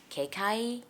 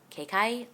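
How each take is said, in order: First: The name is said as two clipped syllables. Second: The same.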